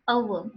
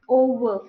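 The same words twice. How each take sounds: First: Over with a gliding "oh-oo" start; over modelled falling, lips closing on O; correct pronunciation. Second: Over with a pure O, no glide; over in mother-tongue fashion, loud unglided O; wrong pronunciation. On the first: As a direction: say over with a diphthong O. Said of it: "What are the correct pronunciations then?". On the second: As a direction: say over with one flat round vowel first. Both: Shown as a demonstration.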